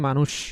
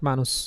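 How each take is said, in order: First: The word ends with an sh sound. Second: The word ends with an s sound. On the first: The speaker calls it right. "এস এইচ এর মতো করে বলি, এই জন্য বলি মানুষ" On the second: The speaker calls it wrong. "Not"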